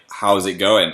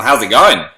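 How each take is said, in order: First: Said in the usual way. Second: Imitated Australian accent, louder. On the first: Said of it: "They were more just like". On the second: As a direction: ask it like an Australian. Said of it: "copied your accent".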